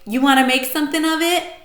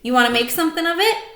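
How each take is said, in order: First: It is said in a tough-guy voice. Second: It is said in a plain child's voice.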